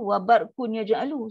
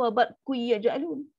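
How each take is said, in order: First: The n is pronounced clearly without nasal merging. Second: The n disappears completely into the following y. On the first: "kenapa awak baca macam tu? ... Sedangkan sini dengung" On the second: "masuk one hundred percent ... Pun tak boleh nak bunyi macam tu"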